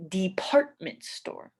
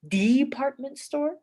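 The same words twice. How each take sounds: First: De-PART-ment store, force on PART; stress on second syllable. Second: DEE-partment store, force on the first syllable; stress on first syllable. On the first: Teacher asks which is said, exaggerated de-PART-ment. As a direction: lean on the PART of department. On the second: Teacher asks which is said, exaggerated DEE-partment. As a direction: punch the DE of department. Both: Shown as a demonstration. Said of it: "what parts of the word they say the most".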